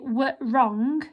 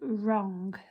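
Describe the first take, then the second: First: A w sound is pronounced before the r. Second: The word starts straight with the r sound. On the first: The speaker calls it wrong. "we don't say w wrong" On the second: The speaker calls it right. "we say wrong"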